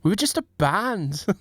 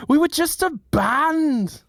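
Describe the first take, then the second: First: Mock Mancunian rock singer. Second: Hammed-up Mancunian singer, high and drawn out. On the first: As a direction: put on a Manchester accent, restrained first take. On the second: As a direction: stretch it slowly in a much higher Manchester whine.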